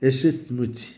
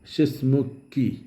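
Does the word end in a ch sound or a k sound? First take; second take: ch sound; k sound. First: The suffix is pronounced with a ch sound. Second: The suffix is pronounced with a k sound. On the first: "ചി എന്ന ശബ്ദത്തിലാണ് ഉച്ചരിക്കുന്നത്" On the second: "ഷിസ്മുക്കി എന്നാണ് അറബിയിലുള്ളത്"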